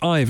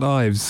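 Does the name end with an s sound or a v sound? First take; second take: v sound; s sound. First: The name ends with a v sound. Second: The name ends with an s sound. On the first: The speaker calls it right. "it's Ive" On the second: The speaker calls it wrong. "not Ives"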